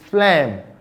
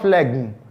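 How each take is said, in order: First: The g sound is silent before the m. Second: The g sound is pronounced before the m. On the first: The speaker calls it right. "It's phlegm" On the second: The speaker calls it wrong. "not phlegm"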